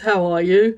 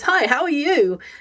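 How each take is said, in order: First: It is said in a tired, flat way. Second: It is said in a cheerful, lively way.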